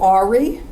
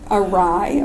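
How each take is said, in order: First: The word sounds like 'AR-ee'. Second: The word sounds like 'uh-RYE'. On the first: The speaker calls it wrong. "they always go Ari" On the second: The speaker calls it right. "Awry, of course"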